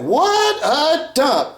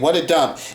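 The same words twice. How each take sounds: First: It is said in an over-dramatic way. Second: It is said casually, without drama.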